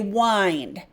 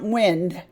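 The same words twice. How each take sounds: First: It is pronounced as the action verb. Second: It is pronounced as the noun. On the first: It names an action, like winding string. "I'm going to say wind because I want the action" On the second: It names a thing. "I don't want wind, the noun"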